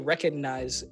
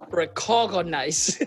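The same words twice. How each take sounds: First: It is said in an American accent. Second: It is said in a Kenyan accent.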